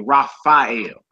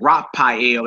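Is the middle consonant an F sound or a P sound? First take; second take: F sound; P sound. First: The middle consonant is an F sound. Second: The middle consonant is a P sound. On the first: "they say Raphael" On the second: "instead of saying Raphael"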